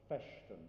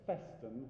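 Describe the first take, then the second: First: The middle consonant is an SH sound. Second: The middle consonant is a plain S sound. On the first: The speaker calls it wrong. "It's not an S H on that occasion" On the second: The speaker calls it right. "with a normal S sound in the middle of it"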